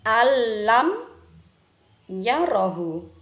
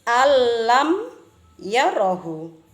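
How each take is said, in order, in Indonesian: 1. Bunyi n melebur menjadi bunyi l yang bertasydid. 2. Bunyi n melebur menjadi bunyi l yang bertasydid.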